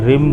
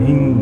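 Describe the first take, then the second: First: The word ends with a closed m sound. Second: The word ends with a ringing ng sound. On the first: The speaker calls it wrong. "तुम साधारण रूप से रिम बोलते हो, लेकिन वो रिम नहीं" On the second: The speaker calls it right. "रिंग है। उसे गकार से ज्वाइंट होता है"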